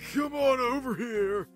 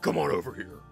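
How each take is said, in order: First: The character voice sounds smooth, not rough. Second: The character voice sounds rough and gravelly. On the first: The speaker calls it wrong. "No, I can't remember his voice" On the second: The speaker calls it right. "his voice could be a little rougher"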